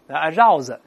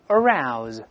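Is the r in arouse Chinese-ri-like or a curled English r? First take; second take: Chinese ri; English r. First: The r sounds like the Chinese syllable ri. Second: The r is a curled-tongue English r. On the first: The speaker calls it wrong. "把这个r 读成日" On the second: The speaker calls it right. "勾舌头"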